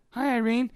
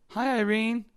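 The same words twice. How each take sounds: First: "Hi, Irene" sung out high with a lift; high sing-song greeting. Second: A high, cheery "Hi, Irene" to a coworker; high sing-song greeting. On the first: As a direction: greet her high and bright. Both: Shown as a demonstration. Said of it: "with that, at that tone".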